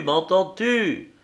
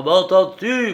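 First: Much higher, slow, dragged out in fury; slower furious repeat. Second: Much higher and louder, shouted; furious shout. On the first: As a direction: grind the question out slowly. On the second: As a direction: scream the question in rage. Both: A narrator's reading. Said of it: "Il tremblait de fureur".

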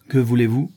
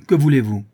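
First: Voix ferme. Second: Louder, higher, falling at the end; insistent demand. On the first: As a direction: question posée avec fermeté, un peu plus fort. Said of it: "dit-il enfin d'une voix ferme". (d'une voix ferme) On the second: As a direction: press the crowd for an answer. Il répète sa question avec insistance. (question répétée avec force) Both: A narrator's reading.

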